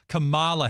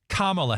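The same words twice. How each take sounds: First: The stress is on the second syllable. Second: The stress is on the first syllable. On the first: The speaker calls it wrong. "A lot of people have been calling her" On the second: The speaker calls it right. "you put the emphasis on the first syllable"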